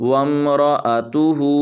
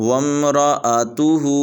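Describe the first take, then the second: The two takes are said the same way.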